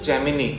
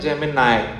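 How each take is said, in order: First: The word ends with an 'ee' sound. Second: The word ends with an 'eye' sound. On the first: The speaker calls it wrong. "आप सब क्या बोलते हो" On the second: The speaker calls it right. "वो क्या होता है"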